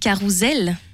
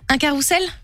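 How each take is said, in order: First: The middle consonant is a buzzing Z sound. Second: The middle consonant is a hissing S sound. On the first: The speaker calls it right. "parce qu'il y a un S entre deux voyelles" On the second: The speaker calls it wrong. "Eh ben non"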